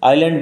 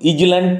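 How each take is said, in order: First: The s is silent: eye-land. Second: The s is pronounced as z: iz-land. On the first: The speaker calls it right. "এস সাইল্যান্ড থাকবে" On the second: The speaker calls it wrong. "ইজল্যান্ড নয়"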